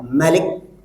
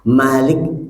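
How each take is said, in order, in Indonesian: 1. Vokal pertama diucapkan pendek. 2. Vokal pertama diucapkan panjang.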